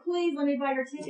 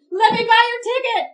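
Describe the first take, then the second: First: Quick plea at a normal volume; earnest plea. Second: High, loud blurted call; sudden loud offer. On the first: Woman pleading to help a stranded Marine get home, earnest quick plea. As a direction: press the offer politely and quickly. Same offer repeated as a plea. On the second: Woman blurting out an offer to a stranded Marine, sudden loud outburst. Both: Retold or imitated.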